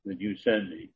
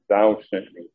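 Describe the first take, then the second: First: Said in the usual way. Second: "thou" stressed with a falling tune; emphatic thou. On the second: Shown as a demonstration. Preacher pointing out another emphatic pronoun, stressed "thou". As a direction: lean on the word "thou". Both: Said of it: "Another emphatic pronoun".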